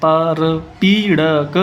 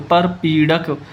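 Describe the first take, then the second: First: परपीड़क stretched syllable by syllable, very slowly; teacher dictating परपीड़क slowly; slow spelled-out reading. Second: Said in the usual way. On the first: Shown as a demonstration. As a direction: sound out परपीड़क slowly for the class. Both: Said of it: "परपीड़क क्या शब्द है जी?".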